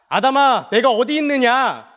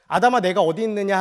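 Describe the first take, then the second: First: It is said urgently and forcefully. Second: It is said calmly and gently.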